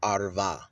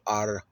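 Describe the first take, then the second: First: The middle consonant is a v sound. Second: The middle consonant is a w sound. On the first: The speaker calls it wrong. "I don't say Arva" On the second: The speaker calls it right. "I say Arwa"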